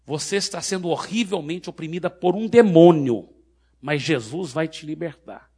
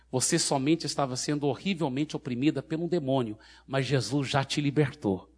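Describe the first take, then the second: First: Forceful preaching declaration; loud proclamation. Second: Calm, even explanation without force; gentle reassurance. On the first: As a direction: proclaim it loudly so the crowd can hear. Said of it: "bem alto pra multidão poder ouvir". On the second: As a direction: reassure her calmly that it is over. Same words, now reassuring the freed woman. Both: Retold or imitated.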